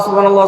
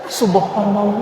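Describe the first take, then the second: First: The word is said short and quick. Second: The word is drawn out, with different intonation.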